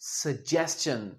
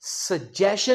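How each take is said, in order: First: The middle sound is 's' followed by 'ch'. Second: The middle sound is a plain 'sh'. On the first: The speaker calls it right. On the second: The speaker calls it wrong.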